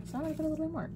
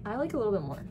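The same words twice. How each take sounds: First: High, put-on goofy voice; silly high voice. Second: Said in the usual way. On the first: Repeating the remark to viewers, in a goofy higher voice.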